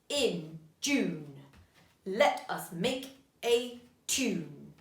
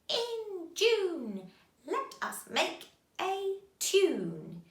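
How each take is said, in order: First: It is said in a marching soldier voice. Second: It is said in a cackling witch voice. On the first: "We're doing a soldier's voice, marching" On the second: "Can you say it in a witch's voice?"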